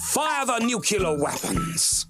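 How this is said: It is said dramatically and alarmingly.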